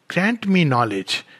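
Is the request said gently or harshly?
gently. It is said gently with a smooth rhythm. "in a beautiful rhythmic way"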